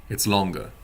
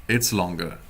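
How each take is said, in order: Both takes have the same delivery.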